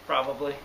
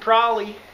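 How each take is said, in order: First: The word is said with all three syllables. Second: The word is squeezed into two short syllables. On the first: "What's Prolly?" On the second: "Samich and Prolly"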